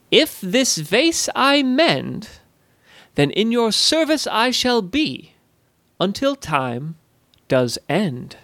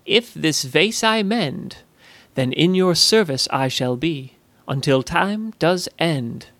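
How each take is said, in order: First: High, slow, sing-song goblin voice; solemn rhyming pledge. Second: Slow, uneasy recalled rhyme; remembered pledge. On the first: Acted. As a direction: intone the rhyme like a ritual vow. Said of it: "not in a threatening way". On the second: Retold or imitated. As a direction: recite the vow slowly, half to herself. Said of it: "She thought back to Zoe's words".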